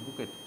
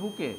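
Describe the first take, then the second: First: The word ends with a clear t sound. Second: The word ends in a vowel with no t. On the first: It shows the spelling for a spelling test. "Spelling test করার জন্য বলবো বুকেট" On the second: This is how the word is really pronounced. "উচ্চারণটা হবে বুকে"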